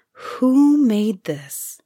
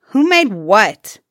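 First: Sighed wonder. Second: Loud, brusque question; rude demand. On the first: King's son wonders at the shirt, sighing. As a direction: linger on each word, marvelling. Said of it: "he sighed at last". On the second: Suyatar challenges the king's son, demanding rudely. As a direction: demand it rudely, hitting the words hard. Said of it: "Suyatar demanded rudely". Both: A narrator's reading.

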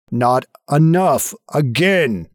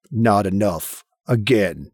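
First: Slow, insistent voice behind the door; drawn-out, insistent command; louder, more insistent. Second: Low, restrained command; ominous low demand; voice behind the door. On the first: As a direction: press each word, slow and forceful. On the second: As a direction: intone it low from beyond the door. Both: Acted. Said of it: "louder and more insistent".

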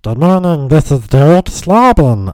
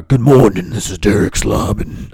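First: Loud high put-on greeting; altered caller voice. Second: Altered caller voice. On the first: Caller introducing himself to another person, high altered voice. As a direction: sing out a silly, high-pitched caller voice. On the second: Retold or imitated. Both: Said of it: "constantly alter my voice".

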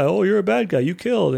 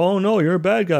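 First: Higher, sing-song taunt of "bad guy"; mock accusing officers. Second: Higher, mocking jeer of "bad guy"; mock accusing officers. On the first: Officers accusing Kirk of murder, higher sing-song taunt. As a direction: taunt him a second time, pushing higher. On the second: Officers accusing Kirk of murder, mock jeering. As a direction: tease the accused like a cartoon crowd. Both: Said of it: "And people are like".

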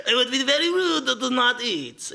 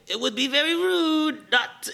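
First: Lightly hammed-up French accent, much higher; French chef insisting gently; light French accent, more insistent; mock French chef. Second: Lightly hammed-up French accent, much higher; a playful French chef scolding; a light French accent on a polite warning; mock French chef. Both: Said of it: "this is a French chef".

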